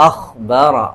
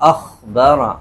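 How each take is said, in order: The two takes are said the same way.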